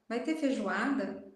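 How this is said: It is said in a disgusted, displeased tone. The speaker dislikes the dish. "Eca, vai ter feijoada?"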